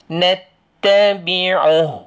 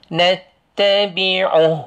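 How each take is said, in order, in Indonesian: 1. Vokal akhir dihilangkan dan dipotong. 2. Vokal akhir dihilangkan dan dipotong.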